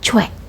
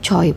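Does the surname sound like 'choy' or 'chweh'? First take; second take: chweh; choy. First: The name sounds like 'chweh', ending in an e vowel. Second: The name sounds like 'choy', ending in an oy glide. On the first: The speaker calls it right. "Cara baca yang benar yaitu menjadi cuek" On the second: The speaker calls it wrong. "Yang sering kalian baca yaitu Choi"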